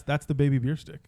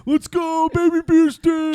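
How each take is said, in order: First: Said in the usual way. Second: High, loud party cheer; frat bro. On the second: Retold or imitated. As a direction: hype him up like a frat bro chugging. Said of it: "I have video on my phone of me going".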